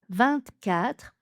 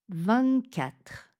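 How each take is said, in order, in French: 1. Le t de vingt se prononce. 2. Le t de vingt est muet. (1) "première prononciation avec le petit T" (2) "avec le petit N"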